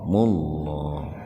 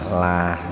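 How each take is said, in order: First: The vowel is dark and heavy, toward o. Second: The vowel is light and clear, like a. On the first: "jadi dibacanya tebal, bunyinya itu o itu biar terdengar tebal" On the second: "Kalau tipis bunyinya a kan"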